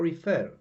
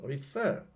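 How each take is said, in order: First: The stress is on the first syllable. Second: The stress is on the last syllable. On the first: The speaker calls it wrong. "it could be refer or refer" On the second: The speaker calls it right. "the stress falls on the last syllable"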